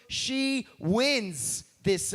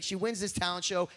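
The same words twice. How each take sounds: First: She wins this stretched slowly, wins held long; drawn out. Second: Said in the usual way. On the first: Shown as a demonstration. Retelling the talent show.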